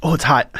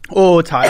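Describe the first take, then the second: First: Pained groan at the heat; mouth burning from spicy food. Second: Louder pained cry at the heat; burning mouth, second wave; mouth burning from spicy food. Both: Real, not acted.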